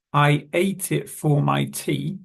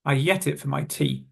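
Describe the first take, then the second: First: "ate" as a clear "eight"; slow, separate words in "ate it for my tea"; careful full form. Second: "ate" becomes "yet", glued to I; quick "yet it for my tea" with weak "for"; everyday linked form. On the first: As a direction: enunciate "ate" with its long vowel. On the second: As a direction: link I to "yet" with a y sound. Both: Shown as a demonstration. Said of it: "we would normally say it like".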